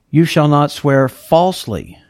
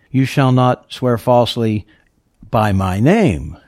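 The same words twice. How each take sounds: First: Falsely given the weight of the line; God's reading, falsely underlined; stress on falsely. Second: By my name drawn out and slowed; slow down and weigh by my name; the rabbis' reading, weight on the name; stress on by my name. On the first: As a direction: lean on falsely, not on the name. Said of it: "I've underlined falsely there". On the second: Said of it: "they taught". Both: Shown as a demonstration.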